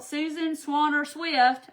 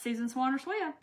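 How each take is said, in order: First: "Susan Swanner Swift" said slowly, each name spelled out; careful name. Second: Said in the usual way. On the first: Shown as a demonstration. Host carefully reading a winner's name, slow and deliberate. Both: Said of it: "I wanna say that".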